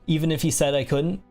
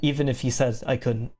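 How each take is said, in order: First: The pitch rises at the end. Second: The pitch falls at the end. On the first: The speaker calls it wrong. "like the upper inflection" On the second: The speaker calls it right. "that was with a lower inflection"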